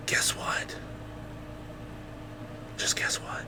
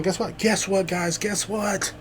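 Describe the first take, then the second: First: Hushed conspiratorial whisper; whispered guess what; secretive whisper. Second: High, eager teasing call; high teaser before the whisper; teasing guess what. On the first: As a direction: lean in and whisper the tease. Secretive teasing before big news. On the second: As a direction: dangle the news, eager and bouncy. Teasing build-up to big news. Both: Acted.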